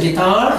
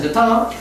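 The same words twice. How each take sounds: First: 기타 said the American way, like a flapped "getar" with the stress on the second syllable; American guitar. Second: 기타 said the British way, a crisp "gitaa" with a clear t and no final r; British guitar. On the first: Teacher shows students the American way to say 기타, flapped and stressed late. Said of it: "미국에서는 기타". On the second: Teacher shows students the British way to say 기타, crisp t and no r. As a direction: give 기타 the British sound, with a clean t and an open ending. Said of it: "영국에서는 기타". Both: Shown as a demonstration.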